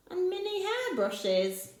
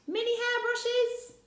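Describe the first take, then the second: First: Said in the usual way. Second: Much higher, hairbrushes rising in disbelief; mock astonishment; amazed question. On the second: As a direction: Rossetti laughing at the idea of hairbrushes. Rossetti questions the list.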